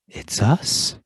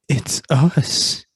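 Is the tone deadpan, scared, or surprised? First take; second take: surprised; scared. First: It is said with surprise. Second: It is said in a scared way.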